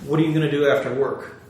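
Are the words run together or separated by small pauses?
run together. The words run together without gaps between them.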